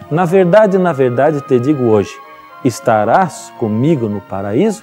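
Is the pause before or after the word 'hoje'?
after. There is a pause after 'hoje'.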